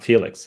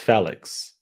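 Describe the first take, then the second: First: Felix is said with an English pronunciation. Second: Felix is said with a Portuguese pronunciation. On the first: This is how the commentators say it. The speaker calls it wrong. "It's not Felix" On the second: This is how the name is really said. The speaker calls it right. "it's Felix. F E with an accent"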